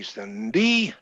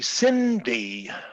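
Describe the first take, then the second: First: The pitch starts low and rises high. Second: The pitch starts high and falls low. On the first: "the low high would be Cindy" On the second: "High low would be Cindy"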